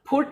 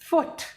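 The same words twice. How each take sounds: First: It begins with an aspirated p sound. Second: It begins with air blown through, an f. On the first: The speaker calls it wrong. "हम कभी भी फुट नहीं बोलते, फ नहीं बोलते हैं" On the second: The speaker calls it right. "सिर्फ एयर पास करनी है, जैसे आप लोग ब्लो करते हैं"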